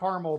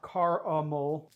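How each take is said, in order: First: The middle vowel is dropped, giving two syllables. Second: The middle vowel is sounded, giving three syllables. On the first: This is the speaker's usual way of saying it. "I pronounce it caramel" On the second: This is an attempt at the other way of saying it. "I know there's additional A, so I'm trying to say the uh"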